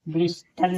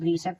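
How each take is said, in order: First: The t sound is pronounced. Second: The t sound is silent. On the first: The speaker calls it wrong. "ब्रिस्टल नहीं" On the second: The speaker calls it right. "टी यहाँ silent है"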